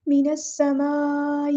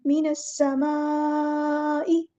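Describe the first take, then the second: First: A faulty take of मिनस समाई, shown to be avoided; wrong recitation. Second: मिनस समाई drawn out very slowly, the सीन sounded clearly; correct slow recitation. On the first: Tajweed teacher shows students the wrong reading of मिनस समाई. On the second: Tajweed teacher models the correct reading for students, slow recitation. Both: Shown as a demonstration. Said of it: "ये नहीं करना".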